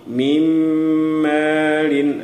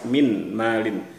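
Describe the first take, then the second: First: The n merges into a nasalized m sound. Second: The n sound is heard clearly before m. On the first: The speaker calls it right. "bunyi nunnya kita masukkan ke, ke dalam bunyi mim" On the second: The speaker calls it wrong. "itu cara baca izhar, jelas, nunnya terdengar jelas"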